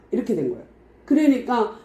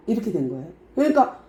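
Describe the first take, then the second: No difference in how they are said.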